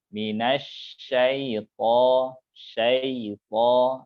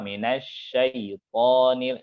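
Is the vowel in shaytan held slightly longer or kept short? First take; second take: longer; short. First: The vowel is slightly lengthened and softened. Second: The vowel is short and the sound is hard. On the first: The speaker calls it right. "jadi dia agak memanjang dikit" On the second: The speaker calls it wrong. "nah itu kurang lembut"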